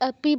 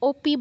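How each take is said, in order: First: The first vowel sounds like 'a'. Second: The first vowel sounds like 'o'. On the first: The speaker calls it right. "অপি বলতে হবে" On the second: The speaker calls it wrong. "ওপি বলা যাবে না"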